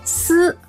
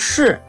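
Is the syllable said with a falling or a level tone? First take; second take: level; falling. First: It is said with a level tone. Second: It is said with a falling tone.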